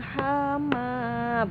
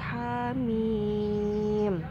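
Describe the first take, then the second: First: The word ends in a vowel sound. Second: The word ends in an m sound. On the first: The speaker calls it wrong. "bukan dibacanya hama, bukan" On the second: The speaker calls it right. "Jadi ya sesuai hamim"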